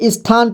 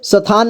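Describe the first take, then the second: First: The word starts with a light 'is' sound. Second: The word starts directly without a light 'is' sound. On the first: The speaker calls it right. "इसे स्थान पढ़ेंगे" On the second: The speaker calls it wrong. "इसे स्थान नहीं पढ़ना है"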